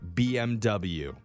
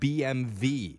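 First: The last letter is said as English 'double-u'. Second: The last letter is said as German 'vay'. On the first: The speaker calls it wrong. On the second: The speaker calls it right.

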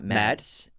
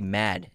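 First: The name ends with an s sound. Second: The name ends without an s sound. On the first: The speaker calls it wrong. "not Mads" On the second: The speaker calls it right. "you just say Mad"

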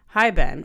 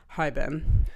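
First: It is read in her normal voice. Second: It is read in a put-on dude voice.

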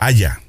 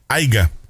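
First: No g sound is heard in the middle. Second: A g sound is heard in the middle. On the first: The speaker calls it right. "es haya" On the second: The speaker calls it wrong. "Y no es aiga"

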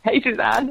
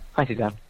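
First: The greeting is said with excitement. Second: The greeting is said flatly, without excitement.

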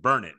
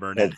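First: The stress is on the first syllable. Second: The stress is on the second syllable. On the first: The speaker calls it right. "So it's Burnett" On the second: The speaker calls it wrong. "I was saying Burnett"

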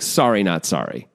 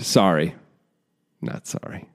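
First: It runs together with no pause. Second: There is a pause after the first sorry.

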